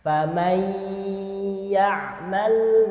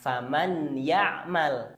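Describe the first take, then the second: First: The n merges into ya with a held hum. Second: The n sound passes quickly without a held hum. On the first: The speaker calls it right. "ditahan dengan dengung seperti ini" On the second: The speaker calls it wrong. "bukan faman ya'mal"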